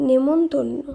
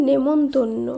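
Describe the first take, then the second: Both takes have the same delivery.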